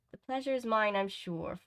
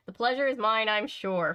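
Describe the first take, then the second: First: Restrained, feminine character voice; the girl's voice. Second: Exaggerated, exasperated echo; mocking repeat. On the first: Acted. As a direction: play it as the polite girl. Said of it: "I thought that was the girl". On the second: A narrator's reading. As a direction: parrot it with an eye roll. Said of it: "rolling his eyes".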